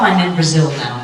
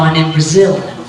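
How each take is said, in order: First: Brazil is only lightly emphasized. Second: Brazil is strongly emphasized.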